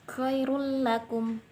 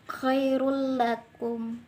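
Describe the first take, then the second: The two takes are said the same way.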